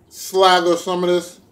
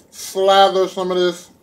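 No difference in how they are said.

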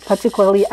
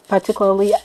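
No difference in how they are said.

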